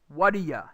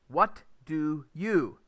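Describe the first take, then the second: First: The words are run together with a reduced 'you'. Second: The words are said separately with small gaps. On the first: The speaker calls it right. "you instead you would say" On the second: The speaker calls it wrong. "It's hard to say that without actually putting gaps between the words"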